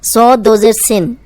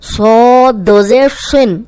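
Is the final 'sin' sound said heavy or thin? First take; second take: thin; heavy. First: The final syllable is said thin and light. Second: The final syllable is said heavy and full. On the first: The speaker calls it wrong. "ये ऐसे नहीं होता।" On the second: The speaker calls it right. "सिन मोटा करना है"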